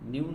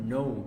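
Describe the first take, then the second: First: It sounds like 'new', with a y-glide. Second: It sounds like 'no', without a y-glide. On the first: The speaker calls it wrong. "প্রচলিত ভাবে সবাই আমরা এটাকে নিউ বলি" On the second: The speaker calls it right. "নিউ এর সঠিক pronunciation হলো নো"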